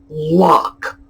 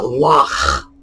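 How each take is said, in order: First: It ends with a plain hard k sound. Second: It ends with a raspy sound in the throat.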